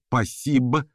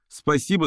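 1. Из слова выпадает первый звук. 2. Слово произносится полностью. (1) "сокращается до «пасибо»" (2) "«Спасибо» сокращается до «пасибо»"

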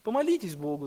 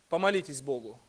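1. Произнесено смиренным, незначительным тоном. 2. Произнесено гордым, самодовольным тоном. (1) "совсем другой интонацией, уже не такой важной" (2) "с чувством собственного достоинства"

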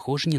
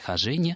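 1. Ударение на первом слоге. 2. Ударение на втором слоге. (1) "с ударением в слове «хожине» на первом слоге" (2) "с ударением на втором слоге"

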